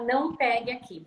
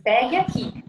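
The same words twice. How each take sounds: First: Said in the usual way. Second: "Pegue aqui" said a bit louder, rising at "aqui"; encouraging instruction. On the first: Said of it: "Então, você não fala". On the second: Shown as a demonstration. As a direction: invite the child, "Pegue aqui" with a lifting end. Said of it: "Você diz". ("Pegue aqui" com tom convidativo e final subindo)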